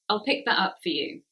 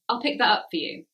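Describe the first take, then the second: First: I and will are merged into one syllable. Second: The same.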